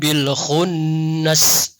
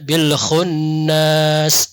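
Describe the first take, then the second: First: The final vowel is kept short. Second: The final vowel is held long. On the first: The speaker calls it right. "tidak boleh memang dipanjangkan di situ" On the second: The speaker calls it wrong. "Jangan dibaca"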